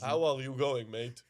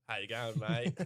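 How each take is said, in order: First: A louder mock Hungarian accent on an Aussie greeting; hammed-up Hungarian accent, the opening punched louder; the Hungarian yoga teacher greets in a mock Hungarian accent; thick Hungarian accent. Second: Lightly mimicked Australian accent, the way a yoga teacher says it; perfect Aussie accent. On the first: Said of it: "coming from a thick Hungarian accent". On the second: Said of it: "say in the perfect Aussie accent".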